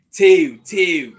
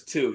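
First: "Two" fronted to "tee-ew", high and loud; Baltimore accent. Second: Said in the usual way. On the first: Retold or imitated. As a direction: yell "Two" as "tyew", imitating a Baltimore teammate. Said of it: "That's how they say it".

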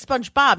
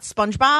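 First: SPONGEBOB as she says it, first vowel opened to "spahnj"; imitating mispronunciation. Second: SPONGEBOB with a short "uh" in SPUNJ; correct pronunciation. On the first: Woman imitating her sister-in-law, mispronounced Spahnj-Bob. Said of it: "She always says SpongeBob". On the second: Shown as a demonstration. Woman correcting her sister-in-law, standard Spunj-Bob. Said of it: "not SpongeBob".

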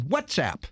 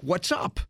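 First: "WhatsApp" ending in a clear "app". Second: "What's up" ending in "up"; sound-alike phrase. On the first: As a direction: say "WhatsApp" with the short a of "cat" at the end. Name set against sound-alike phrase. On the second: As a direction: say "What's up" with the vowel of "cup" at the end. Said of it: "because it sounded like". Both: Shown as a demonstration.

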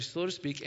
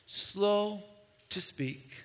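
First: Said in the usual way. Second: Slow to speak, with long pauses between; drawn-out slowness. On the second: Shown as a demonstration. Preacher playfully demonstrating being slow to speak, drawn-out slowness.

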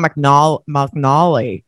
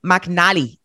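First: McNally with a drawn-out, open MAW-like middle; McNALLY copied with a broad "nawl" in it; imitated pronunciation. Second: McNally with a short "nal" as in pal; McNALLY as mac-NAL-ee, demonstrated carefully; own pronunciation. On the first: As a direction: mimic the other speaker's McNALLY, middle syllable stretched. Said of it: "I love the way you say". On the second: Shown as a demonstration. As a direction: say McNALLY slowly, short a in the middle. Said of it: "I say McNally".

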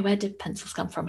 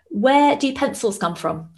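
First: Said in the usual way. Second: Put-on higher, slow, a child springing a riddle; son's joke voice. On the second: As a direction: lightly play the little boy asking the riddle. Son telling his joke.

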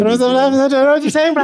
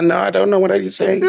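First: Put-on Afrikaans accent. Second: English in a high Afrikaans tone; Afrikaans accent. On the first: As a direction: overdo the Afrikaans twang. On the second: Shown as a demonstration. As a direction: sound Afrikaans without Afrikaans words. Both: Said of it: "English in an Afrikaans accent and tone".

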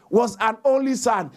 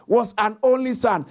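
No difference in how they are said.

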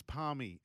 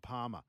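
First: Palmy said with the L, PAL-mee; Palmy, the proper local way; right way. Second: Parma said without the L, PAH-ma; Parma, the way Victorians say it; wrong way. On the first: Host correcting a listener, saying it the right way. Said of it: "It's not Parma". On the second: Host mocking the Victorian word, said their way. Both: Shown as a demonstration.

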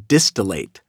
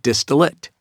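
First: "distillate" as DIS-tuh-layt; "distillate" with a full vowel in the last syllable; correct pronunciation. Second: "distillate" as DIS-tuh-lut; "distillate" with a reduced, unstressed ending; mistaken pronunciation. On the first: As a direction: end "distillate" on a clear long A, like "late". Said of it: "it is pronounced distillate". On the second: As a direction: swallow the last vowel of "distillate" to a short "lit". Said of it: "not distillate". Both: Shown as a demonstration.

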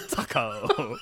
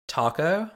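First: "taco" said as tuh-koh through a laugh; laughing taco attempt. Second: "taco" in a rising American accent, tack-oh. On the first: Laugh through a failed "taco" while teasing a friend. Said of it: "Can't say it". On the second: American accent "taco" tried on a friend's request. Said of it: "give me your American accent version". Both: Shown as a demonstration.

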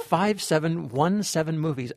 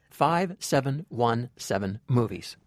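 First: Said in the usual way. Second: Five seven one seven movies said slowly and clearly; slow deliberate repeat. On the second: Shown as a demonstration. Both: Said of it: "I repeat".

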